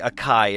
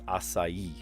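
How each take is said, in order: First: The middle consonant is a hard K sound. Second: The middle consonant is a soft S sound. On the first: The speaker calls it wrong. "people say acai, and it makes me want to die inside" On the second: The speaker calls it right. "forces the C to make a soft S sound. It's not a K"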